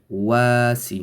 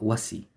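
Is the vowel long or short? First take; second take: long; short. First: The vowel is held long. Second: The vowel is kept short. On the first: The speaker calls it right. "to make it long, two harakat long. So it would be wasi" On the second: The speaker calls it wrong. "not wasi"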